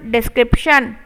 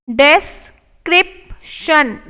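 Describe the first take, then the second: First: Said in the usual way. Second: Description stretched slowly; slow model take. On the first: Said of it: "normal repeat". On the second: Shown as a demonstration. Teacher modelling description slowly. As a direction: draw it out for the class. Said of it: "slow model take".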